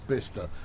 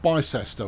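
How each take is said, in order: First: The name is said shortly, with two syllables. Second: The name is said as spelled, three syllables. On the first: The speaker calls it right. "It's Bista" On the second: The speaker calls it wrong. "it's not Bicester, which is what it should be"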